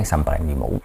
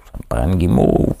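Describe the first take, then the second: First: Low, soft imagined morning craving; mock craving, understated. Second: Mock craving, exaggerated. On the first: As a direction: murmur it low, like a sleepy thought. Acts out someone waking up craving marshmallows. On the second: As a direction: play up the craving, stretching "guimauve". Repeats the imagined craving, drawn out.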